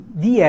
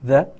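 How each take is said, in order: First: The vowel of 'the' is a long 'ee'. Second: The vowel of 'the' is a short 'uh'. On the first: "quando eu tenho um som de vogal, eu vou ter que pronunciar isso aqui de" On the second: "quando eu tenho um som de consoante, vai ser the"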